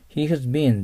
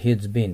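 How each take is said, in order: First: "He has been" with "has" said in full; full uncontracted form. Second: "he's been" with "has" shrunk to a z; contracted form. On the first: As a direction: say "He has been" as three separate words. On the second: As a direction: say "he's been" run together as "heez been". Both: Shown as a demonstration. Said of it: "っていうのはhe's beenですけど".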